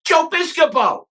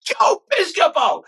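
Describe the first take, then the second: First: Tom Hanks greeting, much higher and louder; a high, delighted call across the crowd. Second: Tom Hanks, much higher and louder, slow; slow, high, delighted call of the name; Tom Hanks drawn out. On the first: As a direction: hail him like Hanks spotting an old friend. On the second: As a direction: stretch the name out, savouring it like Hanks. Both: Retold or imitated. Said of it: "Tom Hanks says that".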